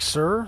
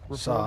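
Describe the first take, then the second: First: The pitch rises on the word. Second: The pitch falls on the word. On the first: "like sir, like going up" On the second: "he goes down as like saw"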